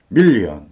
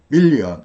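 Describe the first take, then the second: First: It is said with a Korean-style downward accent. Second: The same.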